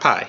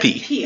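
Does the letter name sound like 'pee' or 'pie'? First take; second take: pie; pee. First: The letter name rhymes with 'eye'. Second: The letter name rhymes with 'see'. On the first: This follows the modern Greek pronunciation. The speaker calls it wrong. "not pi" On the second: This follows the Erasmian Koine Greek pronunciation. The speaker calls it right. "It's P"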